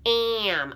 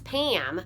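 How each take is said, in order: First: The name is drawn out with its sounds separated. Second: The name is said quickly as in normal talk. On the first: "leak that out" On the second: "When we talk, if I were to say"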